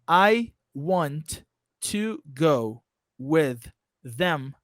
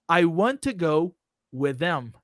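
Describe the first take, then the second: First: Words are pronounced clearly but kept separate. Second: Words are linked, sharing t and th sounds. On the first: "Your pronunciation is fine. ... You didn't apply the connected speech" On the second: "That's exactly what you have to do"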